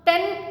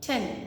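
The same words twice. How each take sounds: First: The t is made with the tongue curled back. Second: The t is made with the tongue flat forward. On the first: The speaker calls it wrong. "It is not టెన్ కాదు" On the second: The speaker calls it right. "టెన్ టెన్ ట sound"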